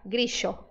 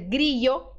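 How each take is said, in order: First: The middle consonant is an sh sound. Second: The middle consonant is a y sound. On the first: "pode ser pronunciado como S H" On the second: "pode ser pronunciado como I"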